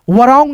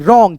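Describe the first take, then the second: First: वरॉन्ग with the w sounded as व; wrong pronunciation. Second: रॉन्ग with silent w, starting on र; correct pronunciation. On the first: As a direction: say वरॉन्ग sounding the silent w, as a mistake. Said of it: "वरॉन्ग नहीं पढ़ते". (गलत उच्चारण: वरॉन्ग, w को व बोलकर) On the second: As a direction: say रॉन्ग cleanly, no w sound. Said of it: "रॉन्ग केवल". (सही उच्चारण: रॉन्ग, w बिना बोले) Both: Shown as a demonstration.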